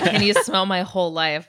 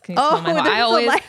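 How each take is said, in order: First: The words run on without a pause before 'life'. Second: There is a pause between 'whole' and 'life'. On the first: "he does say" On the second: "it's such a funny pause there"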